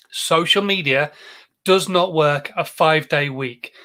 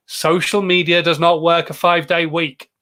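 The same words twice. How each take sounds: First: Slow, measured delivery with a pause after "Social media"; slow, deliberate repeat. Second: "Social media does not work a five-day week" stated firmly in one unbroken run; emphatic statement. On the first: Host lets the point sink in for viewers, slow and deliberate. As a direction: spell it out slowly, phrase by phrase. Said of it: "I want that to sink in". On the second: Host warns viewers about weekends, firm unbroken emphasis on "does not work a five-day week". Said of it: "I want you to digest that". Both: Real, not acted.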